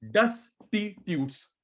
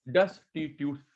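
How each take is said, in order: First: डेस्टिट्यूट्स said slowly, syllable by syllable; split syllables. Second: Said in the usual way. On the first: Shown as a demonstration. Teacher showing students how to split a new word, slowly. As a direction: break डेस्टिट्यूट्स into parts for the class to copy. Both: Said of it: "दो तीन बार split करके बोल".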